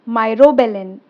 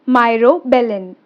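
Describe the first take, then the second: The two takes are said the same way.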